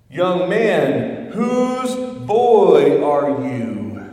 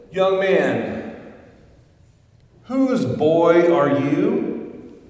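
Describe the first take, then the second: First: Louder, slow, pressing call; booming drawn-out repeat of the question; preacher calling again. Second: Loud, slow, probing call across the church; booming slow question to a stranger; preacher calling out. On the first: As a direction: ask it again, leaning in harder. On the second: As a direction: call out to the boy from the pulpit, drawn out. Preacher calls out to boy. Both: Acted.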